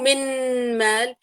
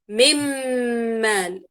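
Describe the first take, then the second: First: The n is pronounced clearly before the m. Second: The n merges fully into a doubled m. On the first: The speaker calls it wrong. "لا مو من مال" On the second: The speaker calls it right. "مباشرة انتقل من الميم إلى الميم"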